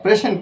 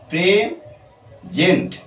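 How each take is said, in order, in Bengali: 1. মাঝের 's' টি একটি হিসহিসে 's'। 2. মাঝের 's' টি 'z' এর মতো উচ্চারিত হয়। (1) "প্রেজেন্ট করতে পারবো না" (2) "কি করতে পারবো"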